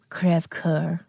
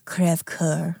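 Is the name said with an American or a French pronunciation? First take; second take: French; French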